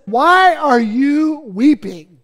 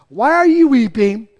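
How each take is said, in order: First: Slow angel voice. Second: Said in the usual way. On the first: Acted. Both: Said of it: "the angel of the Lord said".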